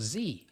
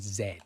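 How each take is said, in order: First: The letter is said as 'zee', American style. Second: The letter is said as 'zed', non-American style.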